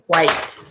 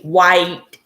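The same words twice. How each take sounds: First: It starts with a breathy hw sound. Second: It starts with a plain w sound. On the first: This is how the speaker normally says it. "I pronounce the H" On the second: This is not how the speaker normally says it.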